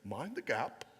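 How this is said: It is said in a British accent.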